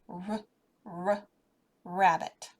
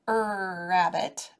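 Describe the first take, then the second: First: The word starts with a short, clipped 'r' sound. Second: The word starts with a drawn-out 'er' vowel sound. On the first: The speaker calls it right. "it's a r" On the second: The speaker calls it wrong. "it's not an er rabbit"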